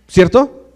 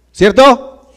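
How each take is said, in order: First: Said in the usual way. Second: ¿Cierto? raised, louder and higher; ¿Cierto? repeated higher and louder; louder prompt for an answer. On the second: Real, not acted. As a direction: demand a reply from the crowd. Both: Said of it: "Sí. Gracias".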